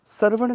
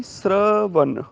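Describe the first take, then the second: First: Said in the usual way. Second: ਸ਼ਰਵਣ drawn out very slowly, every sound spelled out; ਸ਼ਰਵਣ slow and syllable by syllable; careful pronunciation. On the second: Shown as a demonstration. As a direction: stretch ਸ਼ਰਵਣ slowly so students hear each sound. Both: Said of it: "ਸ਼ਰਵਣ ਨਹੀਂ".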